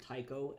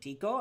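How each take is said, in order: First: The name is said with an American pronunciation. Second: The name is said with a Greek pronunciation. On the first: "most Americans are going to pronounce it Tycho" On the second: "a person pronounce my name in Greek"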